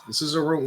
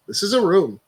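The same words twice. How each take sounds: First: Said in the usual way. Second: This is a room said loud and excited; "This is a room" pitched up and louder. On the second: Shown as a demonstration.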